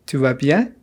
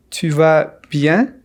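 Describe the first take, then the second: First: Said in the usual way. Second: Tu vas bien slowly, word by word; careful slow question for learners; slow model. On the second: Shown as a demonstration. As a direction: space out Tu vas, then bien. Slow model, then natural repeat.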